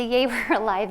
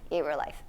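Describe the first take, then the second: First: Laughing yay. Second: Tired yay. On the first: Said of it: "sometimes the". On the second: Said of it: "is even like". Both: Retold or imitated.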